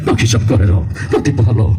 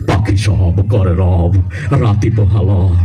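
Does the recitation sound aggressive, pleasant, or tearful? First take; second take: aggressive; pleasant. First: It is recited in a forceful, aggressive voice. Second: It is recited in a pleasant, melodious voice. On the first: "কোন সময় ঘুষি একটা মেয়ে দিবি বলা যায় না" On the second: "তোর ভয়েসটাও সুন্দর আবৃত্তিটাও সুন্দর"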